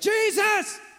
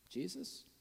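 First: It is called out strongly and confidently. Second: It is asked weakly and doubtfully.

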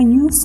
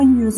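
First: The word ends with a hissing s sound. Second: The word ends with a buzzing z sound. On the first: The word is used as a noun. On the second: The word is used as a verb.

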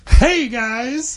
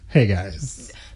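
First: The greeting sounds upbeat and cheerful. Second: The greeting sounds sad and dejected.

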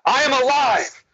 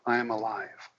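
First: It is said with conviction and confidence. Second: It is said timidly and hesitantly.

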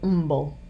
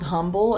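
First: The word begins with no H sound. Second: The word begins with an audible H sound. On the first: "they say Umble" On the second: "the street is spelled Humble"

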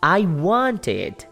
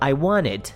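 First: The T in the middle is clearly pronounced. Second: The T in the middle is dropped. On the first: The speaker calls it wrong. "vou tirar esse T" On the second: The speaker calls it right. "a pronúncia perfeitinha é assim"

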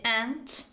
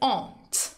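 First: It is said with an American pronunciation. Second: It is said with a British pronunciation. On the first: "توی امریکن میشه aunt" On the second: "توی بریتیش میشه aunt"

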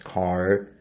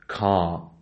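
First: The final R sound is clearly pronounced. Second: The final R sound is left silent. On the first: The speaker calls it wrong. "American says car, we won't pronounce it like this" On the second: The speaker calls it right. "This is so much lazy and flat with no American R sound"

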